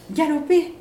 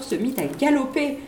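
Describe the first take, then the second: First: "galoper" repeated higher, stretched out; emphatic echo. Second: Said in the usual way. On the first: A narrator's reading. Narrator echoing the gallop, "galoper" lifted high. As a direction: echo "galoper" as if the horse speeds off.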